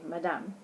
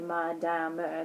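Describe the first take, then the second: First: The final E is silent, giving two syllables. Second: The final E is sounded as a separate syllable. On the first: The speaker calls it right. "they say madame" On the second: The speaker calls it wrong. "they don't say madame"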